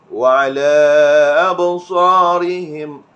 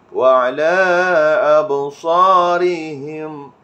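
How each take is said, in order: Both takes have the same delivery.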